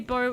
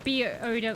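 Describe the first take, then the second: First: It is spoken as a single word. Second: The three letters are spoken one by one. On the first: The speaker calls it wrong. "can I say bow anyway, or will that trigger people?" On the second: The speaker calls it right. "Like B O W"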